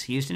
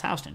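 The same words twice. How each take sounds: First: Houston said as HYOO-stun; Houston starting like "hue"; city pronunciation. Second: Houston said as HOW-stun; Houston starting with "how", not "hue"; local street pronunciation. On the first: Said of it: "You don't get to tell us it's Houston". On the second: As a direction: say Houston like "house-tun". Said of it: "It's Houston". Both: Shown as a demonstration.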